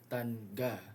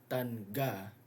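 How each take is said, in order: Both takes have the same delivery.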